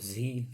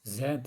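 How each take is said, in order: First: The letter is said as zee, American style. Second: The letter is said as zed, British style.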